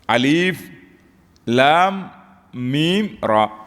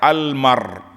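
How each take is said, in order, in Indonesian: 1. Setiap nama huruf dibaca terpisah. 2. Huruf-huruf ini disambung menjadi satu kata. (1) "Baca terpisah" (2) "Jangan kata almar"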